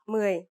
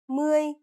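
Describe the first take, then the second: First: The word carries the original tone of ten. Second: The word carries the changed tone used in twenty. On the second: "the tone for ten is changed here"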